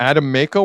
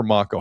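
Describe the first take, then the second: First: Mako said MAY-ko; pronunciation option. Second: Mako said MAH-ko; pronunciation option. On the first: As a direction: say "Mako" with a long A, as in "make". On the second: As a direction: say "Mako" with an open "ah" in the first syllable. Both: Shown as a demonstration. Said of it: "How do you pronounce that?".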